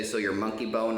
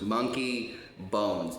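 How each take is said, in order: First: Quoting the wrong name monkey bone; "monkey bone" said with no s, as others say it. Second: Slow, careful "Monkey bones" with a clear final s; correct name. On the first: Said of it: "I have to correct them". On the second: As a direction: spell it out slowly: "Monkey bones", plural. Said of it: "not monkey bone". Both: Shown as a demonstration.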